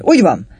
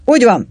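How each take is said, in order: First: Crowd roaring agreement. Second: High, loud cry of agreement; shouting. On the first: Drinkers echoing the call for rum, roaring agreement. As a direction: roar approval along with the mob. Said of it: "zúgták az alkoholisták". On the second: Tropauer backing the call for rum, shouting. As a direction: yell your approval. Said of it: "kiabálta Tropauer". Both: A narrator's reading.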